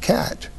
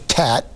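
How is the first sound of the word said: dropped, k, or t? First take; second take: k; t. First: The first consonant is a k sound. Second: The first consonant is a t sound. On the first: The final adult form. "And then finally cat" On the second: A later stage with an easier sound. "to tat, because the tongue tip is easier to raise"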